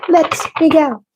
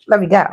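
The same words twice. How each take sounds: First: High, laughing "Let me go"; giggled "Let me go". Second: Said in the usual way. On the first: Real, not acted. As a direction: squeal "Let me go" through a laugh.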